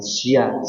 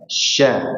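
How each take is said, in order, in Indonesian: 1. Konsonannya terpisah menjadi 's' ditambah 'i'. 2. Konsonannya adalah satu bunyi 'sh' yang mulus.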